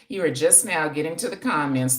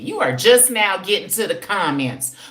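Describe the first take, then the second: First: It is read out in a plain, neutral tone. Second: It is read with a pointed, sassy attitude.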